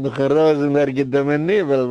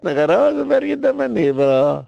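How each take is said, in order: First: Said in the usual way. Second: Indignant high repeat stressing "Rosenberg"; emphatic repeat. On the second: Shown as a demonstration. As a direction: repeat it pitched up with "Rosenberg" punched.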